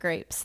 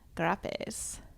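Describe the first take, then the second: First: The word has its ordinary pronunciation. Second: The word is said with a silly distorted pronunciation. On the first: "grapes aren't grapes" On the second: "Just everything has to be wrong"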